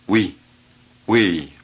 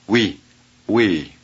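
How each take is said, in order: The two takes are said the same way.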